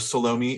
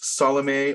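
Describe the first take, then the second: First: The name is said in a British way. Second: The name is said in a non-British way.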